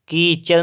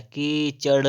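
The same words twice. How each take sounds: First: "कीचड़" higher, ending in plain r; wrong final r. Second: "कीचड़" slow, ending in retroflex ṛ; correct final flap. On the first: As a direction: say "कीचड़" as keechar. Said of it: "कीचड़ नहीं होता है". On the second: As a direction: stretch "कीचड़" to a curled ṛ. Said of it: "कीचड़ होता है". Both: Shown as a demonstration.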